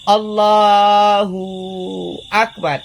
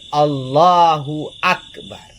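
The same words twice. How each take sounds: First: The 'hu' syllable is drawn out long. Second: The 'hu' syllable is kept short. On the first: The speaker calls it wrong. "Tidak boleh panjang di hu juga" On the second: The speaker calls it right. "Tetap lafal takbir Allahu Akbar"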